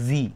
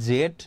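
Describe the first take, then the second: First: The letter name ends with a long ee sound. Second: The letter name ends with a d sound. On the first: "বা জি" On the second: "এটাকে তোমরা জেড এটাও pronounce করতে পারো"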